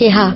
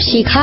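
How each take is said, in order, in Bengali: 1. নামে e স্বরধ্বনি আর h ধ্বনি আছে। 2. নামে i স্বরধ্বনি আর k ধ্বনি আছে। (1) "আমার নামটাও শুদ্ধভাবে বলতে পারে না" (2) "আমার নাম শিখা"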